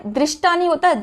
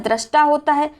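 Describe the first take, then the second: First: दृष्टा said "drishta"; wrong pronunciation. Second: दृष्टा said "drashta"; correct pronunciation. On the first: Teacher quoting the mistake, "dri" form. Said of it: "दृष्टा होता है". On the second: Teacher correcting it, "dra" form. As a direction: say दृष्टा with an a after dr. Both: Shown as a demonstration.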